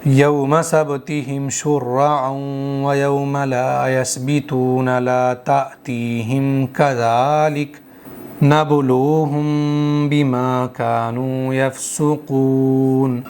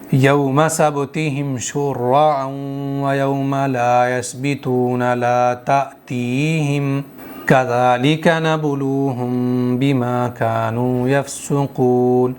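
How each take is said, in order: First: It joins ta'tihim onward, pausing after kadhalik. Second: It pauses after ta'tihim, joining kadhalika onward.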